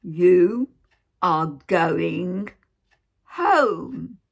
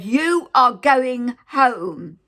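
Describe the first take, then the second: First: Drawn-out shout. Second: Loud, slow, higher shout, each word hammered; retold shouting. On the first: Retold or imitated. Nurse repeating to the patient, loud spaced-out shout. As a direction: spell it out word by word in a loud voice. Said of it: "She didn't say it like that". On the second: Nurse shouting at the patient inches from her face, loud slow shout. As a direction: bark it right in her face, slowly. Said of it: "She was shouting her mouth off".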